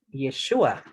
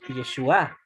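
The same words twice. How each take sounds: First: The stress is on the middle syllable. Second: The stress is on the last syllable. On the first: It is a man's name. "con acento en la U" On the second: It is a feminine noun meaning salvation. "Con acento en la A"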